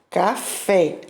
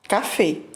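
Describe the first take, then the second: First: Brazilian Portuguese accent, with an open, drawn-out final vowel. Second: Spanish accent, with a final vowel that is not open. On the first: "aqui no Brasil a gente conhece como café, né? Café. A gente puxa o fé" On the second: "Em espanhol se diz café"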